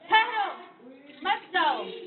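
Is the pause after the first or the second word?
first. The pause comes after the first word.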